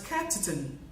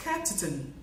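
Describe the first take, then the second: First: The word 'on' has a reduced vowel. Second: The same.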